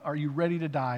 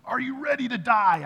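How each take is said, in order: First: Said in the usual way. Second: High, loud retold scream; imitating a sudden piercing yell; screamed challenge. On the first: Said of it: "And he screams out". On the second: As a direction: scream it out like a preacher confronting someone. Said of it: "I mean, screamed it out".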